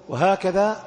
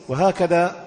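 No difference in how they are said.

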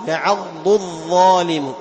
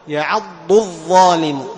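Both takes have the same delivery.

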